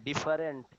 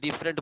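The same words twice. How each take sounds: First: The word is said with a Bengali-accented pronunciation. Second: The word is said with an English-like pronunciation. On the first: The speaker calls it wrong. "এইগুলা উচ্চারণ না" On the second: The speaker calls it right. "ইংলিশের মতো যেন উচ্চারণ হয়"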